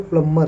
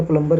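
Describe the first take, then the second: First: प्लम्बर said "plummer" with no b; silent b. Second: प्लम्बर with the b clearly pronounced; wrong b sounded. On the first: Teacher gives students the correct silent b प्लम्बर. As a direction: drop the b in प्लम्बर, run the m into er. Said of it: "इसका सही उच्चारण प्लम्बर". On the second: Teacher imitates how people wrongly say प्लम्बर. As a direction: say प्लम्बर as "plum-ber", b included. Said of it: "हम लोग बार बार प्लम्बर". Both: Shown as a demonstration.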